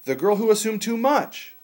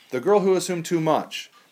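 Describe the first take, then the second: First: The pitch goes up on 'much'. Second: The pitch goes down on 'much'.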